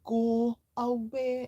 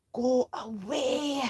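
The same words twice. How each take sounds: First: Higher, louder shooing go away; go away again. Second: A lightly voiced hiss, higher and louder; hissed go away. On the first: Acted. Father shooing son from important call. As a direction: push him off firmly. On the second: A narrator's reading. Dad hissing at his son during call. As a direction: shoo him off under your breath. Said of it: "hissed Dad".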